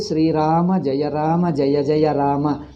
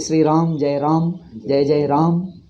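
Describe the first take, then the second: First: The final short vowels of the words are pronounced. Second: The final short vowels of the words are dropped. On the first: The speaker calls it right. "it is a Sanskrit pronunciation" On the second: The speaker calls it wrong. "They bring their Hindi or Marathi pronunciation"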